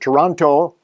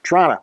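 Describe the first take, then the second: First: It is said the American way. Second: It is said the local Canadian way.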